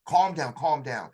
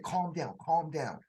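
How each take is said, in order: First: Slow, firm "Calm down, calm down"; severe calm command. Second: Soothing calm voice. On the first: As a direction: order him to settle, steady and stern. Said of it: "he totally went severe". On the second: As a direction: settle a panicking soldier gently. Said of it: "spoke to me in a totally different voice". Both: Retold or imitated.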